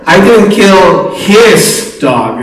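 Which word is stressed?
his. The stress is on the word 'his'. The speaker killed someone else's dog. "You look at the dogs in the community and see what's going on"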